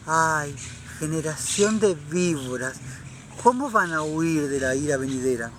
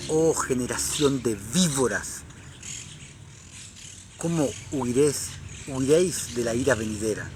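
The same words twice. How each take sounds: First: Limp, whiny version of the rebuke; mock timid rebuke. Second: Fiery prophet rebuke. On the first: Preacher mocks how critics imagine John spoke, mild whiny parody. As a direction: mockingly play John the Baptist as meek and prissy. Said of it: "Qué estúpido, qué ridiculez". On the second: Retold or imitated. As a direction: thunder it like John the Baptist, measured and stern. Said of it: "Juan el Bautista le decía".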